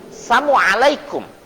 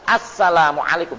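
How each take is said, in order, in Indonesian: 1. Salamnya tidak jelas, ada satu bunyi yang hilang. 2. Salamnya diucapkan dengan jelas, setiap bunyi terdengar. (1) "salah mengucapkan" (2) "Seharusnya kan harus jelas"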